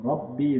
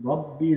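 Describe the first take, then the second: The two takes are said the same way.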